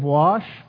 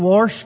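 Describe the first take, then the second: First: The word is said without any R sound. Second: An R sound is added inside the word. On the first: "Instead of wash" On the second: "Add a little R in there"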